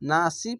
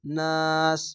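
First: It ends with a short i vowel after s. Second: It ends on the s with no vowel. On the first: The speaker calls it wrong. "নাসি পড়বেন না" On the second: The speaker calls it right. "এভাবে থামতে হবে"

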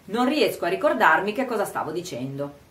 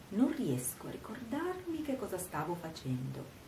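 First: It sounds like announcing a song. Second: It sounds like searching one's memory.

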